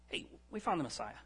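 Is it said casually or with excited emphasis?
casually. It is said in a casual, offhand way.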